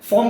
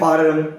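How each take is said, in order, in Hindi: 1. यह स्वर एक खुली, गोल होंठों वाली 'aw' ध्वनि है। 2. यह स्वर एक खुली, बिना गोल होंठों वाली 'ah' ध्वनि है।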